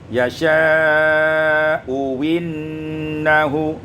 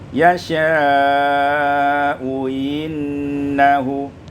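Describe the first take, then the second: First: The second hamza is replaced by a w sound. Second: The second hamza is softened, with no w sound. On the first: "ibdal hamzati tsaniyah wawan" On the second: "yang kedua boleh dengan tashil"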